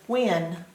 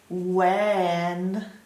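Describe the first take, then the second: First: The vowel is said with an irregular sound. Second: The vowel is said the way it is spelled. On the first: The speaker calls it right. "it says when" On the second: The speaker calls it wrong. "It doesn't say when"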